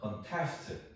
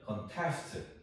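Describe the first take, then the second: First: The stress is on the second syllable. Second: The same.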